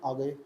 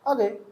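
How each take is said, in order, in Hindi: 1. यह शांत, सीधे-सादे लहजे में बोला गया है। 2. यह हैरान होकर, चौंकने वाले लहजे में बोला गया है। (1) "पहले वाले का मतलब आ गए, कोई बात नहीं, अच्छी बात है" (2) "दूसरे वाले में आ क्यों गए, आश्चर्य हुआ"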